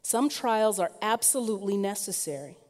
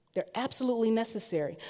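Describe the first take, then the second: First: Said in the usual way. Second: "absolutely" stressed, quicker and higher; emphatic repeat. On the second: Shown as a demonstration. Preacher repeats it to the congregation, leaning on "absolutely". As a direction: drive home "absolutely" in a fast repeat.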